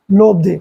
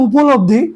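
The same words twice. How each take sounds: First: লব্ধি, with the উপ dropped; physics short form. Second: Said in the usual way. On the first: Shown as a demonstration. Teacher shows students the physics term লব্ধি, clipped form. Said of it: "physics বলবে". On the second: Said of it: "উপ কথাটা বাদ দিবে".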